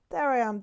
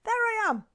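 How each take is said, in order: First: Said in the usual way. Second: Excited squeal. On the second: Real, not acted. Finds the point on her hand.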